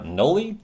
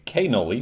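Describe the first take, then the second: First: The word starts without a k sound. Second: The word starts with a k sound.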